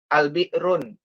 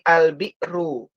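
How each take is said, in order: First: The word ends with an added n sound. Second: The word ends in a plain u vowel. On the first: The speaker calls it wrong. "bukan dibaca un, al-bi'run, bukan" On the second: The speaker calls it right. "Tapi al-bi'ru. Dhammahnya tidak ditanwin"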